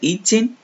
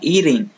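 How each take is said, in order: First: British accent, with a clear t sound. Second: American accent, the t sounds like an r. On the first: "No inglês britânico, se for britânico, é eating mesmo" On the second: "Se for no americano, é eating. Como se fosse esse T com o som de R"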